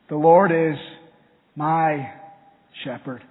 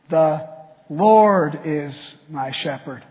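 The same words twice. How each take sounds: First: The word "my" is stressed. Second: The word "Lord" is stressed.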